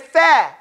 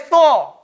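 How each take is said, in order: First: The vowel is open, with the mouth wide. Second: The vowel is rounded, with the lips rounded. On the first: The speaker calls it right. "so we say the" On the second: The speaker calls it wrong. "We don't say Thor"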